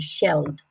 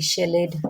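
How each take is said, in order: First: The ending is a plain d sound. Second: The ending is not a plain d sound. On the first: The speaker calls it right. "we say shelled" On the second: The speaker calls it wrong. "We don't say shelled"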